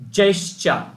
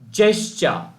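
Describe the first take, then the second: The two takes are said the same way.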